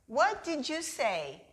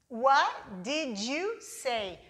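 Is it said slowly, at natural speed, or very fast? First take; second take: natural; slowly. First: It is said at natural conversational speed. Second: It is said slowly and carefully.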